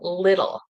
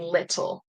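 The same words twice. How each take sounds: First: The middle t is flapped, sounding like d. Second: The middle t is a clear, crisp t. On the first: The speaker calls it right. "the flap T is when the T sounds like a D sound. So we'll say like little" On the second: The speaker calls it wrong. "instead of saying little, which you could say little, but it sounds a little unnatural for me"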